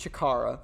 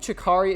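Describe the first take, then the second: First: The name ends with an 'ah' vowel. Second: The name ends with an 'ee' vowel. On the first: The speaker calls it right. "It's Chikara" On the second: The speaker calls it wrong. "Did I keep saying Chikari?"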